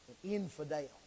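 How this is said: It is said in an exaggerated Southern accent.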